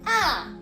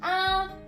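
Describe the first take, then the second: First: It is said with the fourth tone. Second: It is said with the first tone. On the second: "So the first tone"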